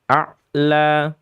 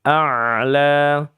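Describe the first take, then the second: First: The ain sound is cut off abruptly. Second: The ain sound flows on continuously. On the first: The speaker calls it wrong. "Jangan dibaca ain-nya dengan keadaan syiddah" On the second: The speaker calls it right. "Ain-nya adalah rakhawah"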